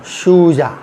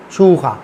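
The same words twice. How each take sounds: First: "शूजा" with a hard j in the last syllable; plain J. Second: "शूखा" with kh replacing the j. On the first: Teacher giving the word before converting it, plain J. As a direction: keep the English-style j in "शूजा". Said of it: "अब शूजा जो है". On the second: Teacher converting a name to Spanish, J as kh. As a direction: turn the j into a throaty kh, "शूखा". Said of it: "Spanish में क्या हो जाएगा". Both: Shown as a demonstration.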